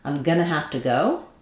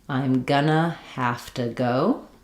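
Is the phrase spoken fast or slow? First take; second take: fast; slow. First: The phrase is spoken quickly. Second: The phrase is spoken slowly. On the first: "I'll just say it correctly, quickly" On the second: "and then slow down so you can practice with me"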